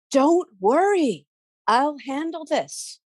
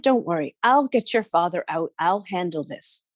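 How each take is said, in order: First: Higher, slow soothing promise; calm them gently; reassuring Bridget. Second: Said in the usual way. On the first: A narrator's reading.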